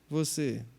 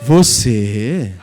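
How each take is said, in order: First: The word sounds scornful and doubtful. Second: The word sounds admiring and impressed. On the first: The listener doubts you could ever achieve it. "alguém vai olhar para você e vai dizer" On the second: The listener is amazed at what you achieved. "essas mesmas pessoas chegarem para você e dizer"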